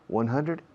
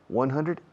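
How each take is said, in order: The two takes are said the same way.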